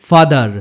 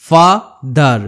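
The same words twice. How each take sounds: First: Said in the usual way. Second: "father" broken in two, ফা, pause, দার; teacher sounding out "father" syllable by syllable; split into syllables. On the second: Shown as a demonstration. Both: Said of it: "দুটো সিলেবেলে ভাঙতে হয়".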